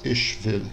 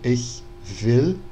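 First: Ich ends in a strong sh sound. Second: Ich ends in a soft, weak hissing ch sound. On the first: This is an old stage pronunciation. "ele faz sh, o chiado" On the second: This is today's standard pronunciation. "na pronúncia de hoje, a gente falaria"

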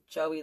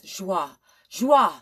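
First: The name is said the English way, like Joey. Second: The name is said the French way, like Joie. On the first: "Joey like a little boy is how you say it" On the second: "how do you say it in French?"

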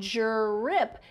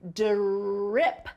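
First: The first sound is a J-like sound. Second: The first sound is a clear D. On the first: The speaker calls it wrong. "Sometimes it sounds like a J. But it's not a drip. It's not drip" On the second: The speaker calls it right. "It's d, drip, drip. It's that d, d sound"

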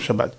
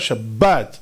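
First: The middle consonant is a soft v sound. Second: The middle consonant is a hard b sound. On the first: The speaker calls it wrong. "ולא" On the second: The speaker calls it right. "הבית דגושה"

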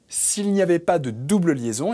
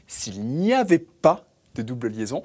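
First: The phrase is spoken at a normal pace. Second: The phrase is spoken at a slower pace.

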